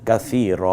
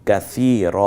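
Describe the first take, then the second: No difference in how they are said.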